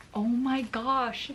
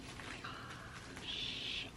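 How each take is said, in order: First: Said in the usual way. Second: Soft, slow whispered awe; real hushed disbelief; breathless whisper. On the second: Real, not acted. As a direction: barely breathe it. Awed while checking roots.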